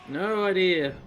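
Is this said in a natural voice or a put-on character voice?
natural. It is said in a natural speaking voice.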